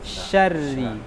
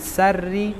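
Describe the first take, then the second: First: The word begins with an sh sound. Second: The word begins with a plain s sound. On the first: The speaker calls it right. "hurufnya shin bukan sin" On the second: The speaker calls it wrong. "Jangan sarri"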